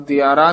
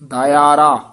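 First: The word begins with a single 'dya' sound. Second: The word begins with separate 'da-i' sounds. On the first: The speaker calls it wrong. "ਦਿਆਰਾ ਨੀ ਕਹਿਣਾ" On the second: The speaker calls it right. "ਕਹਿਣਾ ਦਇਆਰਾ"

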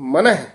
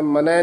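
First: The word is pronounced with a heavier weight. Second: The word is pronounced lightly and plainly. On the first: The speaker calls it right. "ਇਹ ਥੋੜਾ ਜਿਹਾ ਭਾਰਾ ਉਚਾਰਨ ਕਰਨਾ" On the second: The speaker calls it wrong. "ਮਨ ਹੈ ਨੀ ਕਹਿਣਾ"

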